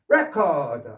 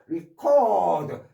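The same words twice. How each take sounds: First: The stress is on the first syllable. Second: The stress is on the second syllable. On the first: It is the noun meaning a record. "앞에 강세가 있으면은 기록이나 수금기의 레코드가 되는 거고" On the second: It is the verb meaning to record. "뒤에 액센트가 들어가면 record"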